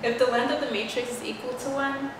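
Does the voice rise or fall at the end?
fall. The voice falls at the end like a statement.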